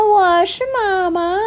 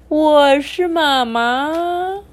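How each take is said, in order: First: The voice is clear and bright. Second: The voice is low, deep and hoarse. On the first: "就把声音变得很清亮" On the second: "大野狼用低沉的声音喊着"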